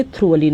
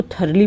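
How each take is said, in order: First: Thoroughly wrongly said as "TROO-vuh-lin"; mispronunciation demo. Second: Thoroughly said as "THUR-lee"; correct pronunciation. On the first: Teacher shows what many people mispronounce, thoroughly as "TROO-vuh-lee". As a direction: say thoroughly like "through-a-lee", r before the vowel. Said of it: "thoroughly नहीं बोलेंगे". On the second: Teacher tells students what to say, thoroughly correctly as "THUR-lee". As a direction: say thoroughly with "thur", not "throo". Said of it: "इसको thoroughly बोलेंगे". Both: Shown as a demonstration.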